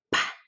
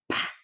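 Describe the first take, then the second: First: The p is released with a strong puff of air. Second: The p is released with a strong puff of air.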